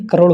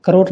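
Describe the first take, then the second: First: Said in the usual way. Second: करोड़ with a plain final r, "karor"; mispronunciation. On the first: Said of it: "करोड़ होता है". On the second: Shown as a demonstration. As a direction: end करोड़ on r, not the flap. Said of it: "करोड़ नहीं". (करोड़ में 'ड़' की जगह 'र')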